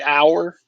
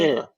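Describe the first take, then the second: First: It is said in a northern US accent. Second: It is said in a southern US accent. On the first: "like I say hour" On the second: "That's how they say hour"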